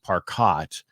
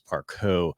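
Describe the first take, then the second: First: The name is said the American way. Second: The name is said the French way. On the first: This is how the family name was used in the United States. "we used Parcot when I was in high school" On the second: This is the name's original French form. "I changed it to the French pronunciation, which is Parco"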